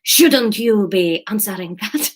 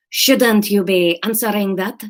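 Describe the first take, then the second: First: Put-on slow, sultry Spanish accent; sexy Spanish accent. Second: Put-on slow Spanish accent, toned down; less sexy Spanish accent.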